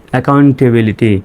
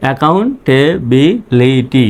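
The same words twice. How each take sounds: First: Said in the usual way. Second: Slow, separated syllables in "accountability"; teacher's slow word breakdown. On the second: Shown as a demonstration. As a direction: sound out "accountability" for repeating along. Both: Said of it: "আমার সঙ্গে সঙ্গে উচ্চারণ করবেন".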